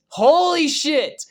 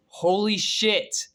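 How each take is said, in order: First: Excited exclamation. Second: Said in the usual way. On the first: Real, not acted. Escalated repeat.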